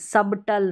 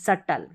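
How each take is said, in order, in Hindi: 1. B की आवाज़ बोली जाती है। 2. B की आवाज़ छोड़ दी जाती है। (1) "सबटल नहीं" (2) "बी तो हमको यहाँ पर साइलेंट रखना है"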